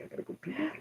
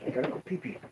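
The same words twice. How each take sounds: First: Put-on much higher, babyish silly voice; baby talk. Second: Softer, breathy whisper. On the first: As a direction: whine it like a little kid. Joking about needing the toilet. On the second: Pretend. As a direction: whisper it like a secret. Repeats the joke in a whisper.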